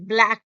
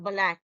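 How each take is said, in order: First: The b and l glide together smoothly. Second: The b and l are split apart. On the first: The speaker calls it right. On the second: The speaker calls it wrong.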